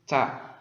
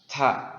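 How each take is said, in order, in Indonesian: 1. Bunyinya diucapkan biasa, tanpa penekanan tambahan. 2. Bunyinya dilebihkan dengan hembusan napas yang lebih jelas.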